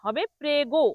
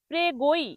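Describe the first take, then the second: First: It ends cleanly on a plain 'o'. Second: It ends with an extra 'ee' glide. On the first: The speaker calls it right. "এটি কিন্তু প্রেগোই হবে না" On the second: The speaker calls it wrong. "অনেকে এটাকে ভুল করে উচ্চারণ করে প্রেগোই।"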